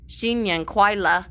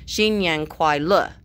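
First: "Xin Yang Kuai Le" pitched higher and lifted like a question. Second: "Xin Yang Kuai Le" slower and firm, punching "Le" at the end; forceful ending. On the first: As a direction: ask "Xin Yang Kuai Le" as if unsure, a wrong questioning tune. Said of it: "You can't say it like a question". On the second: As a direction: land "Xin Yang Kuai Le" like a statement, strong on the last syllable. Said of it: "It has to be very forceful at the end". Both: Shown as a demonstration.

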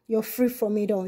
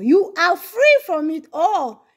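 First: Quiet. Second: "free" held and stressed, slow and firm; slow emphatic declaration. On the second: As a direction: proclaim "free" slowly, leaning on it. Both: Shown as a demonstration.

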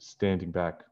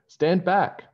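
First: Said in the usual way. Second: Much higher and louder stand back; warning shout. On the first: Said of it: "Sorry, she said". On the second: Acted. George warning friends before throwing, shouting. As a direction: shout a warning to clear space. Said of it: "she said".

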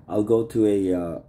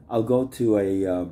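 Both takes have the same delivery.

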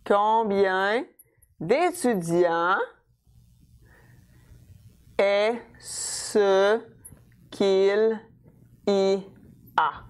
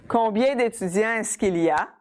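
First: Very slow, long pauses between chunks; teacher spelling out a sentence, word by word; piece by piece. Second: Said in the usual way. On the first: Shown as a demonstration. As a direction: build the question one piece at a time. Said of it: "So I'm gonna start with my interrogative word". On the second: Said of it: "that's an example with est-ce que".

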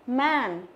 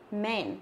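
First: "Man" with a wide, open æ; flat E sound. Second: "men" with a narrower E, softer; plain E sound. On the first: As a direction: spread the vowel of "Man" wide for contrast. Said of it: "đọc bẹt cái miệng ra". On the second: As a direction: drop to a quieter "men" with E as in "bed". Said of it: "đọc nó là âm E". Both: Shown as a demonstration.

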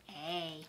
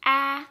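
First: A as a drawn-out "ay", like its name; long A sound. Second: A as the short vowel in "cat", held and loud; short A sound. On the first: Teacher demonstrates for pupils, A as long "ay". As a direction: say A as long "ay", softly held. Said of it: "long sound A". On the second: Teacher demonstrates for pupils, A as short "aah". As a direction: say A as a held, open "aah", not "ay". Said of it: "Short sound A". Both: Shown as a demonstration.

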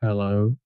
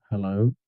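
The two takes are said the same way.

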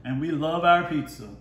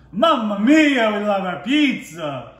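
First: Said in the usual way. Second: Hammed-up Italian pizza chef, slow and high; Italian accent. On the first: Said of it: "I gave y'all the best impression". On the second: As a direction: belt it like a jolly Italian cook, louder. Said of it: "the best impression I could right now".

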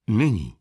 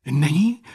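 First: "Není" with a decisive falling tune; definite, falling statement on "Není"; firm answer. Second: "Není" louder with a rising, questioning tune; raised, hopeful question on "Není"; eager question. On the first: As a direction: answer "Není" firmly, dropping the pitch at the end. Doctor firmly answers the question. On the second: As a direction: ask "Není" eagerly, lifting the end. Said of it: "tázal se dychtivě". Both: A narrator's reading.

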